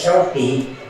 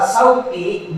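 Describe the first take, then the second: First: It starts with sh and ends with deep q. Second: It starts with plain s, not sh. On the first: It means longing. The speaker calls it right. "Kalau orang tepat mengucapkan nama saya Syauqi" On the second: It means market. The speaker calls it wrong. "tapi depannya sin"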